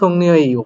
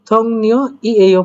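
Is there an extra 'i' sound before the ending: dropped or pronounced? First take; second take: dropped; pronounced. First: The 'i' sound before the ending is dropped. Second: The 'i' sound before the ending is pronounced. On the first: "সেজন্য আমরা থং নিও ইও পড়তেছি" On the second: "থং নিও ই এইও পড়তেছি না"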